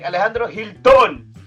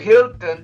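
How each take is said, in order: First: The stress is on the last syllable. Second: The stress is on the first syllable.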